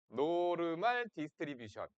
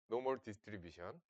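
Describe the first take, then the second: First: The word 'normal' has a spoken r and full 'mahl'. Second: The word 'normal' has a silent r and weak 'mul'. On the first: "노르말" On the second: "노멀"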